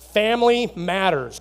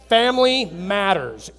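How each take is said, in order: First: It is said plainly, without extra energy. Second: It is said loudly with enthusiasm.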